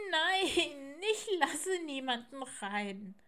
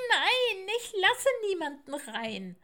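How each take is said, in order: First: High, whiny owlet wail; tearful refusal. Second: High, loud, howled refusal; louder wailing. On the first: Little owl starts crying behind the door, tearful refusal. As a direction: draw out the no as if starting to cry. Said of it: "fing an zu weinen". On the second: Little owl refuses all three visitors, loud wailing. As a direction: howl the no at full voice. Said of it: "heulte das Eulenkind noch lauter". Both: Acted.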